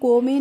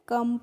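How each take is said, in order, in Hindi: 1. इस स्वर की आवाज़ लंबे 'oh' जैसी है। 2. इस स्वर की आवाज़ छोटे 'uh' जैसी है। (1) "इसको हम को में नहीं पढ़ते हैं" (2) "कम पढ़ते हैं"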